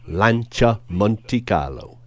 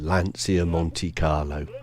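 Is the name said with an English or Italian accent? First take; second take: Italian; English. First: It is said with an Italian accent. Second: It is said with an English accent.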